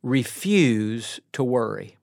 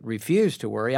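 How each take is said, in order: First: Slow, with "refuse" stressed hard and falling; emphatic command. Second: The worrier echoing "refuse" lower, with a questioning rise; a hint of a sceptical listener throwing the words back; doubtful listener. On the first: Shown as a demonstration. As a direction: lean hard into "refuse", each word deliberate. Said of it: "number one". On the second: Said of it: "you may say, "Oh, now, wait a second".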